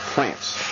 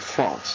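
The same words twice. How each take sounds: First: The word is said in an American way. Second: The word is said in a non-American way. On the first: The speaker calls it right. "It's France. I'm from America" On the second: The speaker calls it wrong. "I pronounced it France"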